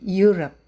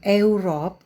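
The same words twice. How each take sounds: First: The word begins with a 'you' sound. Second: The word begins without a 'you' sound. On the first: The speaker calls it right. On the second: The speaker calls it wrong.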